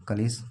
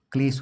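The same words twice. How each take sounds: First: कलेश with an extra a between k and l; कलेश with a vowel between k and l; wrong Hindi pronunciation. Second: क्लेश with the kl cluster joined and a final sh; क्लेश with no vowel between k and l; correct Hindi pronunciation. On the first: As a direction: split the cluster as कलेश to show the mistake. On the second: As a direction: say क्लेश with kl together, ending in sh. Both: Shown as a demonstration. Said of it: "कलेश नहीं होता है".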